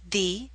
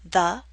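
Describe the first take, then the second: First: The vowel is a long 'ee' sound. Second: The vowel is a short, weak 'uh' sound. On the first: The next word starts with a vowel sound. "Pronounce the as the before a vowel sound" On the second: The next word starts with a consonant sound. "Pronounce the as the before a consonant sound"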